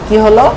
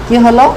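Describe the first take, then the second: No difference in how they are said.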